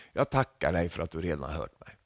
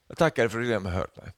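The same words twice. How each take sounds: First: Quiet prayer. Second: Quick confident prayer. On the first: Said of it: "han ber till Gud så här". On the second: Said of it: "Vilken självsäker-, eller gudsäkerhet". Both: Retold or imitated.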